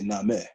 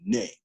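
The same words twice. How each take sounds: First: The word is said as two syllables. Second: The word is said as one syllable. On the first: "if you pronounce it as a two syllable word" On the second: "It has one syllable"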